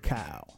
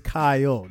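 First: The name is said as one syllable. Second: The name is said as two syllables. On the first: The speaker calls it wrong. "you're probably not going to pronounce it correctly. You're probably going to say Kyle" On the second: The speaker calls it right. "It's two syllables. It's Kyle"

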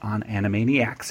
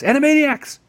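First: The word is said in a flat, normal way. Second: The word is exclaimed with extra energy.

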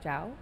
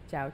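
First: The pitch rises upward on the word. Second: The pitch stays level without rising. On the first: It means niece. "jiao, as in niece, has an intonation" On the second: It means hello. "Jiao has no intonation"

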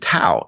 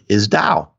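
First: The word begins with a hard T sound. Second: The word begins with a soft D sound. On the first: This is the common everyday pronunciation. "the way most people say it" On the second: This is the original Chinese pronunciation. "the correct pronunciation of the Chinese word"

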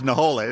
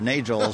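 First: The middle consonant is an h sound. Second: The middle consonant is a hard g. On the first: The speaker calls it right. "told you it was Naholes" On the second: The speaker calls it wrong. "I always thought Nagels or Nagels or something like that"

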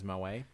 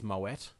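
First: The final t sound is silent. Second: The final t sound is pronounced. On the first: This is the common form that sounds fancier. "But everyone says Moe" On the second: This is the technically correct form. "Technically it's Moet"

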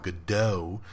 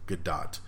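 First: The final T is silent. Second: The final T is clearly sounded. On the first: The speaker calls it wrong. "The T was silent" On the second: The speaker calls it right. "It is basically pronounced G-A-D-O-T-T"

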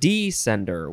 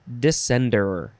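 First: The stress is on the first syllable. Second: The stress is on the second syllable.

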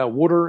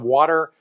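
First: It is said with a Philadelphia accent. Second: It is said with a standard American accent. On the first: "Guys from Philly say" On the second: "instead of"

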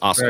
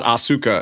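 First: The vowel after the s is silent. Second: The vowel after the s is clearly pronounced. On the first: The speaker calls it right. "a lot of the U's are silent" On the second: The speaker calls it wrong. "Asuka is not Asuka"

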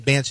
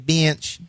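First: Bench is said in a standard accent. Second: Bench is said in a Southern accent. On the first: "They don't say bench" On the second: "Sometime in the South, they say ... They say bench"

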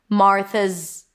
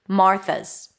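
The two takes are said the same way.

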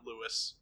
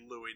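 First: The name is pronounced the English way. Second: The name is pronounced the French way. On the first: The speaker calls it wrong. "not Louis" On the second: The speaker calls it right. "it's a French name. So it would be Louis"

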